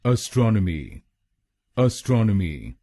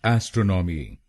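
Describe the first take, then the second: First: astronomy with the weight on स्ट्रॉन, ə-STRON-ə-mi; stress on STRON. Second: astronomy with the weight on the first part, AES-tro-no-mi; wrong stress. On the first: Teacher shows where to stress the word, stress demo. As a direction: lean on the second syllable of astronomy. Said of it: "दूसरे शब्दांश पर ... जोर डालना है". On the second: Teacher shows students the mistaken stress, wrong-way demo. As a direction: hit the opening "ए" as the common mistake. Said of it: "गलत pronunciation में हम ए S T R O पर जोर डालते हैं". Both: Shown as a demonstration.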